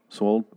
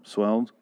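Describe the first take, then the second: First: "Swolled" said with an o vowel, tentatively; trying a word. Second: "Swelled" tried as a question with a rising tune; trying a word. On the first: Groping for the right word while describing Michonne, tentative "Swolled". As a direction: try out "Swolled" like a guess. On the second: Groping for the right word while describing Michonne, unsure "Swelled". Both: Shown as a demonstration. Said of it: "swollen over?".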